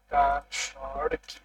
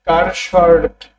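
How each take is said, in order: First: কার্সর stretched out very slowly and softly, sound by sound; very slow pronunciation. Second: কার্সর কি spoken slowly, every syllable clear; slow pronunciation. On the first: Teacher breaking কার্সর down slowly and softly for the class. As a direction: drag কার্সর out syllable by syllable, softer. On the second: Teacher showing students who can't say কার্সর, slowly. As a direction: spell out কার্সর by ear, unhurried. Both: Shown as a demonstration. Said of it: "অনেকেই উচ্চারণ পারে না".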